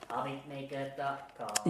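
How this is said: It is said in a robot voice.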